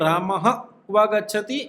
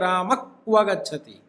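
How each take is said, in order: First: Rama ends in a breathy h-like sound. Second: Rama ends in a k-like sound at the back of the tongue. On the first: "एक बोलते हैं हम" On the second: "उसको भी आधा क जैसा बोलना का उच्चारण होता है"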